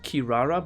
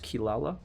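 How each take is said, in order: First: The name is said with R sounds. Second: The name is said with L sounds. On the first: The speaker calls it wrong. "this looks like Kirara" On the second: The speaker calls it right. "in Japanese that's pronounced Kilala"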